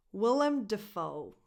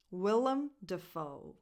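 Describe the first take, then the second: No difference in how they are said.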